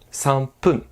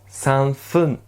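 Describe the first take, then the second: First: The last part begins with a p sound. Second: The last part begins with an f sound. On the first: The speaker calls it right. "C'est beaucoup plus simple à prononcer comme ceci" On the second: The speaker calls it wrong. "c'est un peu embêtant"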